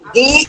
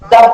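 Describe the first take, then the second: First: The vowel is a clear 'ee'. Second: The vowel is a short, weak 'uh'. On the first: The next word starts with a vowel. "যদি vowel দিয়ে শব্দ হয় শব্দের শুরুতে আসে TH তখন হয় ডি" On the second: The next word starts with a consonant. "যদি কোনো কনসোনেন্ট দিয়ে শব্দ হয় শুরুতে টিএইচ আসে তখন উচ্চারণ হয় দা"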